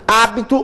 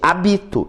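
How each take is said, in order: First: The stress is on the first syllable. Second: The stress is on the second syllable. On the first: It is the noun meaning habit. "Hábito, obviamente, existe" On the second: It is the verb meaning I inhabit. "Eu habito esta região"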